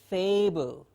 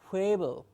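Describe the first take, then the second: First: The word begins with a clear f sound. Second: The word begins with an h-like sound. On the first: The speaker calls it right. "It is a clear f" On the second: The speaker calls it wrong. "mispronouncing this sound"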